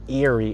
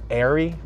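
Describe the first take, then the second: First: The first syllable does not sound like air. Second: The first syllable sounds like the word air. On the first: The speaker calls it wrong. "it's not Airy" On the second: The speaker calls it right. "it's Airy"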